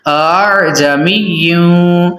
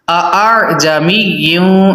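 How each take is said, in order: First: The second glottal stop is softened. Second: The second glottal stop is said fully. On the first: The speaker calls it right. "दूसरे हमजा को बिल्कुल नरमी से पढ़ना" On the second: The speaker calls it wrong. "ये गलत हो जाएगा"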